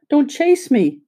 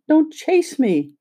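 First: Put-on high, frightened cry of a tiny china girl; frightened little voice. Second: High, slow, frightened plea; slow frightened high cry; frightened little voice, slower. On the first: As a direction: plead in a small scared voice, pitched high. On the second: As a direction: draw it out, small and scared, pitched high. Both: A narrator's reading. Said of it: "She had such a frightened little voice".

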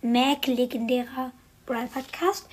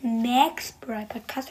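First: "Mac" said with an e-like vowel, slow with a rising end; corrected name Mac. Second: "Max" said as plain Max, slow with a rising end; wrong name Max. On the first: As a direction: say "Mac" as "Mäc", English-style. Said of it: "Ich sag jetzt einfach Mac". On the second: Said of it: "Und nicht Max, sondern Mac". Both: Shown as a demonstration.

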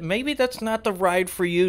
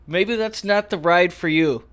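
First: Said in the usual way. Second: "not" punched, slower and louder; stress on not. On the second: Shown as a demonstration. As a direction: lean hard on "not", slow it down.

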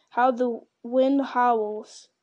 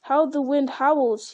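First: Very slow, stretched exclamation; drawn-out remark. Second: Louder, understated exclamation; crying out. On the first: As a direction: draw each word out slowly. Frodo remarks on the cold gloom. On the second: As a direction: cry it out slowly, in mild alarm. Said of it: "he cried". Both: A narrator's reading.

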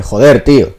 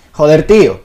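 First: Plain Castilian Spanish delivery; Castilian Spanish accent. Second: Higher, louder Venezuelan lilt; Venezuelan accent. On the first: Showing friends how Spain says it, Castilian accent. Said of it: "en español castellano dice". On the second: Showing friends how Venezuelans would say it, Venezuelan accent. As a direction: put a sing-song Venezuelan accent on it. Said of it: "nosotros podríamos decir". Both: Shown as a demonstration.

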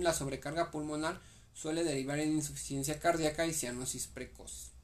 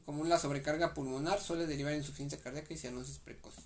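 First: Said in the usual way. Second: Brisk, run-together repeat of the sentence; quick re-read. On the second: Real, not acted. Student re-reads notes to study partner, quickly. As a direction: rattle through it as a recap.

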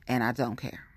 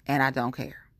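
No difference in how they are said.

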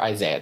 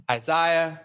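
First: Isaiah, middle syllable rhyming with "say", pitched low; Isaiah with long-a middle. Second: Isaiah, middle syllable rhyming with "eye"; Isaiah with long-i middle. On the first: Preacher offers the other way to say it, Isaiah as eye-ZAY-uh. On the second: Preacher lists the prophets studied so far, Isaiah said eye-ZYE-uh. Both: Shown as a demonstration. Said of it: "depending on how you say it".

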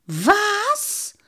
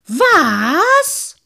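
First: High-pitched, disbelieving yelp; astonished squawk, sliding up; incredulous cry. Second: High, very loud, drawn-out yell; explosive, indignant cry; outraged shout. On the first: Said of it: "rief der Lange". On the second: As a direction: bellow in outrage. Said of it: "rief der Menschenmann aufgebracht". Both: A narrator's reading.

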